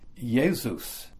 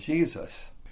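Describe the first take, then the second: First: The name begins with a Y sound. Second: The name begins with a J sound. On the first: This is the older pronunciation. "before they started using the J sound in the late 1600s, it was pronounced Jesus" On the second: This is the later pronunciation. "rather than Jesus"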